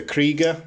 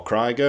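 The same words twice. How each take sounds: First: "Krieger" with a long ee in the first syllable; first pronunciation. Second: "Krieger" with an eye vowel in the first syllable; "Krieger" pronounced to rhyme with tiger; alternative pronunciation. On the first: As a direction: say "Krieger" as KREE-guh. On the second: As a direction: say "Krieger" as KRY-guh. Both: Shown as a demonstration. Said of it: "however you want to pronounce it".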